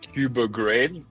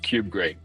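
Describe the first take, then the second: First: The name begins like the start of Kubernetes. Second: The name begins with the plain word cube. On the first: The speaker calls it wrong. "they say Cuba grade, like I guess Kubernetes" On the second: The speaker calls it right. "there's no R, so it's just cube grade"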